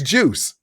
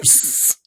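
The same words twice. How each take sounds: First: The final s sound is short and plain. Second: The final s sound is stressed and drawn out. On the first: The speaker calls it right. "it's juice" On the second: The speaker calls it wrong. "You just focus so much on the s at the end of it"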